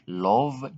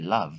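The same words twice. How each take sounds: First: The vowel is said as an 'o' sound. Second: The vowel is said as an 'uh' sound. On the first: The speaker calls it wrong. "We don't say love" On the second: The speaker calls it right. "but we say love"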